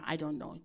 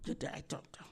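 First: Said in the usual way. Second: Breathy whisper, almost voiceless, much softer; whispered aside. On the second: Retold or imitated. Pastor whispering the receptionist's brush-off to the congregation. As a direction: drop to a mocking whisper on the repeat.

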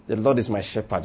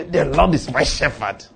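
First: Low, soft self-talk; to yourself. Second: Slow, quarrelsome declaration; quarrelling. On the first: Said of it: "Say it to yourself". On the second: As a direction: say it slowly, as if arguing with your pocket. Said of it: "Quarrel if you like". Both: Shown as a demonstration.

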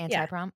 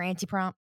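First: Anti-prom, "anti" rhyming with "tie". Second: Anti-prom, "anti" rhyming with "tea"; "anti" as AN-tee. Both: Shown as a demonstration. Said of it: "I only say anti when".

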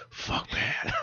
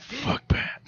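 First: Breathy whispered "Fuck Pat"; whispered curse. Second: High breathy whispered "Fuck Pat" with a laugh behind it; whispered curse. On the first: Manager's unspoken thought about Pat, whispered. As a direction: hiss it under your breath. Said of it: "in his eyes, he's just like". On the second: Friend echoing the manager's thought, whispered through laughter. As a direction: whisper it, almost giggling. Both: Retold or imitated.

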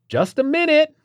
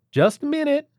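First: Loud, sharp, annoyed holler; impatient holler. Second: High, polite call from inside; polite call through door. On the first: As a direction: yell it back, losing patience. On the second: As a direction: call out politely, still friendly. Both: Acted. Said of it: "hollered again, this time less polite".

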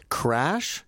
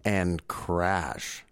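First: CRASH with a lifted, open ending; "Crash" left hanging, tune rising; title, first take. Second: "Crash" lower, with a final fall; title, closing take. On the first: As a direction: say "Crash" as the first item of a list. First of two identical film titles. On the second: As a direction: close the list deadpan on "Crash". Second title, same name, for comedy. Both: Acted.

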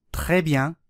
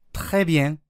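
First: Said in the usual way. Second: Très bien with bien said like "byen", e-coloured nasal; southern French pronunciation. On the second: Shown as a demonstration. Teacher giving a regional example, très bien with southern "byen". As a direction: front the vowel of bien towards "en" in très bien. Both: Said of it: "という風に発音されることがあります".

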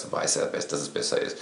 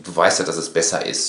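First: Softer, lower, breath-only insistence; quiet suggestive murmur; half-whispered, lower. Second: Said in the usual way. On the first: Retold or imitated. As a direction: drop to a near whisper on "Du weißt ja, dass es besser ist.".

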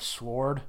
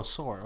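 First: "sword" with the W sounded; W pronounced in sword. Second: "sword" with no W sound; silent W in sword. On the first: Real, not acted. Podcast guest slips while discussing space, W pronounced in sword. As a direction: say "sword" as s-word, W audible. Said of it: "you changed your pronunciation of that". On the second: Shown as a demonstration. Guest corrects himself after co-hosts' remark, silent W in sword. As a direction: say "sword" as sord, dropping the W. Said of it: "I don't pronounce the W at all".

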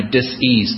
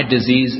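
First: "dis-ease" slowly split into dis and ease; split-word pronunciation. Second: Said in the usual way. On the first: Shown as a demonstration. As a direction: say "dis-ease" as two separate words, dis, then ease. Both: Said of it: "My disease is my dis-ease".

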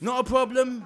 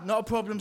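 First: Loud cheery catchphrase. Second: Said in the usual way. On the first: Acted. Salesman catchphrase, louder.

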